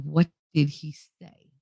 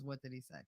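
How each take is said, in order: First: Slow, measured question; imitated stern stepfather. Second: Very low, hushed question; imitated stern stepfather. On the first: Stepfather asks child again at dinner, imitated slow sternness. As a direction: space out each word deliberately. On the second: Stepfather at dinner questions child's question, imitated quiet sternness. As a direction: drop it low and barely voice it. Stepfather puts cutlery down, asks.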